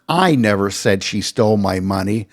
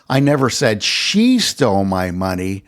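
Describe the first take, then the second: First: The word "I" is stressed. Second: The word "she" is stressed. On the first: Someone else said it. "I'm not the one who said she stole my money" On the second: Someone else might have taken it. "I never said that she stole my money, though someone else might have"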